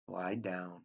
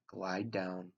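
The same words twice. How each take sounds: The two takes are said the same way.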